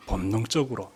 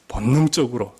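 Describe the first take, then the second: First: 본능적으로를 천천히 힘주어 다시 말하기; 본능적으로를 낮게 끊어 되뇌기; 강조해서 반복. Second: 본능적으로에 힘을 실어 다시; 본능적으로를 조금 크게 짚기. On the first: (본능적으로를 또박또박 강조) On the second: (본능적으로에 힘주어 말하기) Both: Shown as a demonstration.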